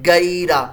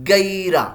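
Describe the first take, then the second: No difference in how they are said.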